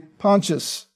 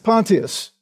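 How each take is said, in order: First: The name is pronounced the American way. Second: The name is pronounced the British way. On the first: "If you're in America" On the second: "If you're in England"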